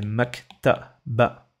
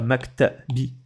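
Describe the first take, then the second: First: The word ends with an a vowel. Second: The word ends with an i vowel. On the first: The speaker calls it right. "Ça fait maktaba" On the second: The speaker calls it wrong. "C'est pas maktabi"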